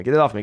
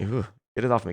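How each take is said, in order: First: Said in the usual way. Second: Soft, grossed-out ooh; mock squeamish. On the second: Caster shrinking from a wrong name on screen, quiet mock disgust. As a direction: recoil from it under your breath.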